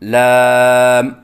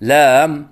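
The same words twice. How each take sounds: First: The pitch is held steady. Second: The pitch wavers up and down. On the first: The speaker calls it right. "सही अदायगी है" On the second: The speaker calls it wrong. "लहराव के साथ पढ़ना"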